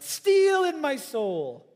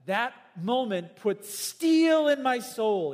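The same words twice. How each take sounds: First: Slow, high and loud, in Lennox's voice; imitating Lennox. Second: Slow, loud, lingering on steel; slow emphatic quote. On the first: Preacher echoing Lennox's words, slow, high, loud. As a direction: put on the old scientist's voice, stretch steel. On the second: Retold or imitated. Preacher quoting Lennox, slow and weighty on steel. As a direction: savour each word, lean on steel. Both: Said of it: "You can hear him saying that".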